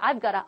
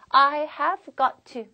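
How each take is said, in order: First: The words are contracted and run together. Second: Every word is said fully and separately. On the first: The speaker calls it right. "실제로 예, 이런 식으로 표현되는" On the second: The speaker calls it wrong. "물론 이렇게 발음 안 나죠"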